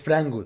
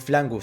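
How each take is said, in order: First: The word is said with an R sound. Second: The word is said with an L sound. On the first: "Em vez de dizer frango" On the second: "Substituem o R por um L"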